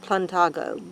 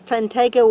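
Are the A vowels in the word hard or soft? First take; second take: soft; hard. First: The A vowels are said soft. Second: The A vowels are said hard.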